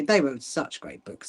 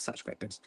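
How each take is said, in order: First: Said in the usual way. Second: Breathy whispered repeat, much softer; whispered echo. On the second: Real, not acted. Fondly echoing her favourite books in a soft whisper. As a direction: let the praise fade into a whisper.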